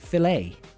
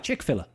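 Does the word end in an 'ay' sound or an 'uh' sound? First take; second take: ay; uh. First: The last syllable sounds like the letter A. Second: The last syllable is a weak 'uh' sound. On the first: The speaker calls it right. "they pronounce it filet. Like the letter A" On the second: The speaker calls it wrong. "I look at it and I'm like, ah, chick filler"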